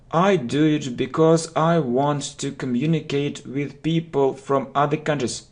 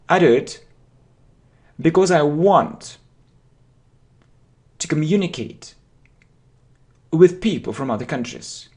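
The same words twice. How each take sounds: First: It is said with flat, unimitated intonation. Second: It is said with lively, imitated intonation. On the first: The speaker calls it wrong. "Most students will say" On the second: The speaker calls it right. "You need to imitate the intonation. Look, I do it"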